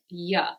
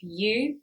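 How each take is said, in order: First: The vowel is reduced to a schwa. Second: The vowel is a full oo sound. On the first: "we're saying ya" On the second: "we're not saying you"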